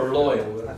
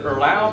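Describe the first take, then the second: First: The vowel sounds like 'oy'. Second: The vowel sounds like 'ow'.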